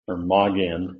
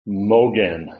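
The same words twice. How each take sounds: First: The first vowel is an ah sound. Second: The first vowel is an O sound. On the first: "or an ah sound" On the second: "an O sound"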